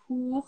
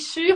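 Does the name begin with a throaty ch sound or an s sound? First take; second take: ch; s. First: The name begins with a throaty ch sound. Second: The name begins with an s sound. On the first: The speaker calls it right. "C'est Coire ou Hour" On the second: The speaker calls it wrong. "Je dis sûr, mais il paraît que ça se dit pas comme ça"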